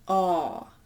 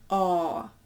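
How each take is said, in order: First: The vowel is long and rounded. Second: The vowel is long and rounded.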